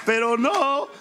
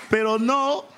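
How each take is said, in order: Both takes have the same delivery.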